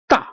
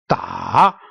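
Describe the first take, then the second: First: The pitch falls all the way down. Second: The pitch dips down and then rises. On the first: "It's all the way down" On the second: "going down and then upward"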